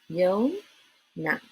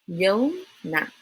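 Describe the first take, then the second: The two takes are said the same way.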